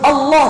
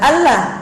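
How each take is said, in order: First: The L is thick, tongue back raised. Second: The L is thin, tongue back not raised. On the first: The name is said with reverence. The speaker calls it right. "disebut Allah dalam pengagungan" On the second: The name is said without reverence. The speaker calls it wrong. "bukan Allah"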